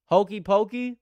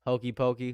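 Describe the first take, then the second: First: High, loud disbelieving read of Hokey pokey; incredulous. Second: Said in the usual way. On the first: Real, not acted. Streamer reading a goofy flavor name off the list, loud and incredulous. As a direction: blurt out Hokey pokey like it can't be real. Reads silly flavor, then repeats plainly.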